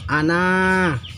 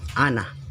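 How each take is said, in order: First: The final vowel is held long. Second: The final vowel is cut short. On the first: "pertamanya panjang" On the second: "karena ada sipir, maka berubah menjadi"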